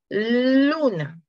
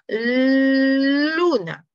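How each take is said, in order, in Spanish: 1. El sonido de la L se alarga un poco más. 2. El sonido de la L se alarga lo máximo. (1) "va a ser un poquito más largo cada vez" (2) "va a ser un poquito más largo cada vez"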